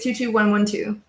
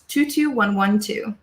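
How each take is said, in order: First: It is said very fast. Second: It is said at normal speed.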